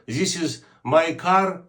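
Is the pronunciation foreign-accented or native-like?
foreign-accented. It is said with a foreign accent. The speaker calls it wrong. "Якщо ви кажете"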